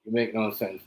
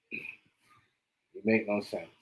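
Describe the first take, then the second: First: Said in the usual way. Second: Very slow, stretched You make no sense; drawn-out disbelief. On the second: Real, not acted. To the rapper, drawing out his scorn very slowly. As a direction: stretch every word out in disbelief. Repeats line, then draws it out.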